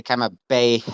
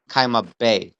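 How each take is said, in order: First: Kaima bay with an audible puff of H closing bay; emphasized final hay. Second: Said in the usual way. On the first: Shown as a demonstration. Teacher showing what the dagesh does, kaima bay with emphasized final H. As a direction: end bay on a pushed-out breathy h in kaima bay. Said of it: "because of the dagesh". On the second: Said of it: "if there wasn't a dagesh".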